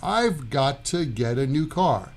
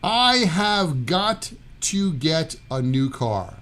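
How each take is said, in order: First: The words are contracted and run together. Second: Every word is said fully and separately.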